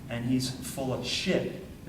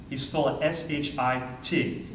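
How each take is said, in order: First: Said in the usual way. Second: "S H I T" spelled letter by letter, slowly. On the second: Shown as a demonstration. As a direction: spell out "S H I T" for the tape. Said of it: "you can put that on tape".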